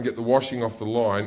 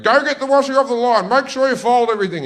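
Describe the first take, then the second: First: Said in the usual way. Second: Loud, high, fast shouted order; mother's yell. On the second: Retold or imitated. Mother in the kitchen ordering her boys about the washing, yelling. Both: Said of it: "yelling at us while we were doing it".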